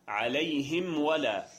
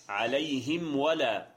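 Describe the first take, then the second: Both takes have the same delivery.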